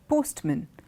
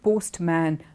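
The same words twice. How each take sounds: First: The word is said in a contracted form. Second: Every sound in the word is fully pronounced. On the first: The speaker calls it right. "It's contracted" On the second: The speaker calls it wrong. "it's not postman"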